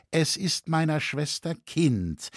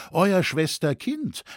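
First: Said in the usual way. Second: Slow, higher-pitched doubting echo; pressing, sceptical. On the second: A narrator's reading. Rauenfelser doubts Leu's story about the child, pressing and sceptical. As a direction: draw out "Schwester Kind" in disbelief. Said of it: "drängte Rauenfelser weiter".

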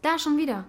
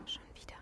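First: Said in the usual way. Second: "Schon wieder" whispered back, far softer; mocking echo. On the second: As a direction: copy her words in a hushed mock. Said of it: "Du machst mich nach".

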